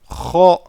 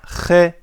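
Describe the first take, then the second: First: The vowel is heavy and dark, said deep. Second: The vowel is light and thin, said high. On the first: The speaker calls it right. "nous disons kha" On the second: The speaker calls it wrong. "nous ne disons pas khe, khe comme ha"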